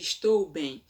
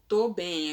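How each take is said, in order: First: The verb is said in full, with every syllable. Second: The verb is shortened, losing its first syllable. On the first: "ao invés de estou bem" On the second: "a pessoa fala obrigado, tô bem"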